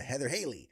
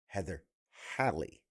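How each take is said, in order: First: The surname does not rhyme with valley. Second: The surname rhymes with valley. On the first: The speaker calls it wrong. "the alliteration part of my brain wants to keep someone going to" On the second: The speaker calls it right. "but no, Heather Hallie, Hallie, like Valley"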